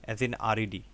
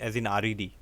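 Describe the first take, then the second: The two takes are said the same way.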